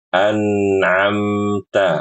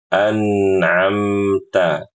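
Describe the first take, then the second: No difference in how they are said.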